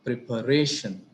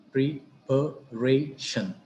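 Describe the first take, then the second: First: Said in the usual way. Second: "preparation" slowly split as pre, pa, ray, shun; syllable by syllable. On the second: Shown as a demonstration. Teacher dividing an example word, "preparation" slowly in separate syllables. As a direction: pause between each syllable of "preparation". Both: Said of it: "The same is the case".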